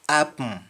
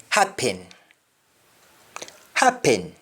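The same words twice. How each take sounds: First: Sung, HAPPEN as "ap-m", no H; sung, Jamaican "apm" for HAPPEN; Jamaican humming. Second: HAPPEN with H and full "en"; English-style HAPPEN, clear last vowel; English pronunciation. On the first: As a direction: hum the end of HAPPEN. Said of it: "some harming in my accent". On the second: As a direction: say HAPPEN as "hap-pen". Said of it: "we don't say happen". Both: Shown as a demonstration.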